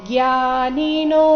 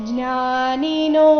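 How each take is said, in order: The two takes are said the same way.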